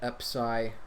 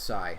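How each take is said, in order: First: The word starts with an extra vowel sound. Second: The word starts directly with a consonant. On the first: Some other people say it this way. "some people pronounce it epsi" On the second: This is the speaker's own usual way. "I just call it psi"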